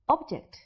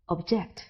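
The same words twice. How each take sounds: First: The stress is on the first syllable. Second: The stress is on the second syllable. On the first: It is used as a noun. "Object is a noun" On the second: It is used as a verb. "while the verb is object"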